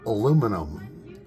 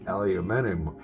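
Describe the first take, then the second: First: It is said the American way. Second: It is said the British way.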